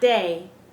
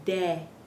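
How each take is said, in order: First: The vowel is a gliding 'ay' sound. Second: The vowel is a short, pure 'eh' sound. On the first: The speaker calls it wrong. "But it's not day" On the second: The speaker calls it right. "it's de. Eh"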